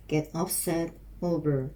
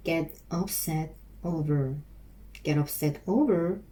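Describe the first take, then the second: First: Said in the usual way. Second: Very slow, each word stretched; slow practice drill. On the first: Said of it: "repeating phrase for practice". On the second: Shown as a demonstration. Learner practising the phrase aloud, very slow and drawn out. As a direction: sound it out slowly, word by word. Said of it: "repeating phrase slowly for practice".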